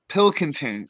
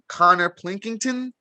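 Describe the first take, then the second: First: The name has no extra l or n sound. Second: The name has an extra l and n sound. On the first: The speaker calls it right. "so it's Pick Or Pilkington" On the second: The speaker calls it wrong. "it looks like it's pronounced um"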